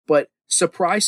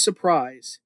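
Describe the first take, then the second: First: Stretched out surprise, rising; playful slow surprise; mock surprise reveal. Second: Said in the usual way. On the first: Shown as a demonstration.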